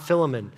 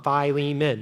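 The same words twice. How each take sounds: First: It does not begin with that 'fi' sound. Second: It begins with the 'fi' sound of fee-fi-fo-fum. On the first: The speaker calls it wrong. "not Philemon" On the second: The speaker calls it right. "just remember fee, fi, fo, fum, Philemon"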